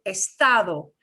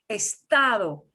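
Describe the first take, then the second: Both takes have the same delivery.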